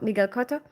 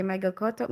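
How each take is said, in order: First: "Miguel" said "mee-GEL" the Spanish way; corrected pronunciation. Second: "Miguel" said as "MY-gel" with an English vowel; first try, English style; anglicised name. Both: Real, not acted.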